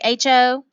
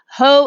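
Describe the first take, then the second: First: It is said as two separate letter names. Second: It is said as one single syllable. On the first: The speaker calls it right. "We say H O for the null hypothesis" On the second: The speaker calls it wrong. "we do not say ho and ha"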